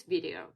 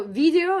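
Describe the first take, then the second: First: Said in the usual way. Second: "video" said as the Russian loanword; "video" with a Russian accent; Russian pronunciation. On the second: Shown as a demonstration. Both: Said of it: "So video is video".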